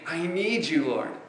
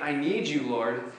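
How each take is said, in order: First: It is said earnestly, with real feeling. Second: It is said casually, without real feeling.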